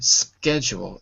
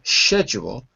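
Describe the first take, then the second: First: It is said with an American pronunciation. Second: It is said with a British pronunciation. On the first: "my version, schedule, is American English" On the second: "the pronunciation of it as a sh, as in schedule, is British English"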